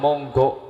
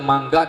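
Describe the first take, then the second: First: The vowels are said as o sounds. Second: The vowels are said as a sounds. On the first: This is the Javanese way. "di Jawa" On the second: This is the Sundanese way. "di Sunda"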